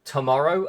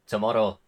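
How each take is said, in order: First: "tomorrow" with a smooth R; standard pronunciation. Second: "tomorrow" with a tapped R; regional pronunciation. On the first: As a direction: say "tomorrow" with an approximant R, ending in a clear OH. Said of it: "a big one is". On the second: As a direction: say "tomorrow" with the R flicked, almost like "tomoddo". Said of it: "that's a funny one". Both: Shown as a demonstration.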